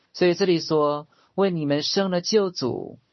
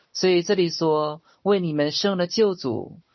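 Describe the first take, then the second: Both takes have the same delivery.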